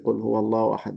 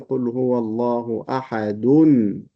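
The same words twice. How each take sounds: First: The word ends without a final n sound. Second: The word ends with an n sound linking onward. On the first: The verse ends here. "no one pronounced this tanween because most people will stop here" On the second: The verse runs on into the next. "this tanween has to be pronounced"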